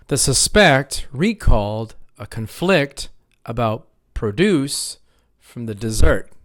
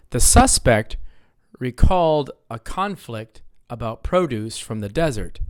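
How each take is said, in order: First: Slow, stressing suspect as sus-PECT, conflict as con-FLICT; misplaced noun stress. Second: SUS-pect and CON-flict, stress up front; first-syllable noun stress. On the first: Teacher tests students with a wrong reading, misplaced stress on suspect and conflict. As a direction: deliberately shift the stress in "suspect" and "conflict" to the second syllable. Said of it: "That doesn't sound right". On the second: Teacher retries the sentence for students, first-syllable stress on suspect and conflict. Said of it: "I'm stressing a different syllable".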